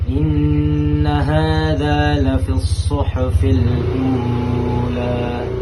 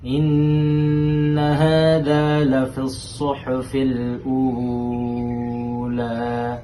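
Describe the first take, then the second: First: The vowel in 'ula' is held two beats. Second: The vowel in 'ula' is held six beats. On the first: "Itu dua harokat" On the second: "itu enam harokat"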